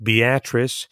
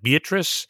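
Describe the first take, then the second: First: The name is said the local way. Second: The name is said as it is spelled. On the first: The speaker calls it right. "but it's pronounced Beatrice" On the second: The speaker calls it wrong. "It's spelled like Beatrice"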